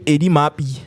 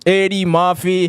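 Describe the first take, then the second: First: The surname is slurred, sounding like Mappy. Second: The surname is enunciated clearly with every sound. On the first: The speaker calls it wrong. "rather than saying Eddie Mappy" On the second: The speaker calls it right. "when you enunciate your words"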